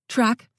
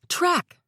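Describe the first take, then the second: First: Called out, higher; calling out a name; yelled name. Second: Called out much higher, desperate; frantic call for help; yelled name. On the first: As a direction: shout his name across the yard. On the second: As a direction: scream his name across the yard. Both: A narrator's reading. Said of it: "I yelled".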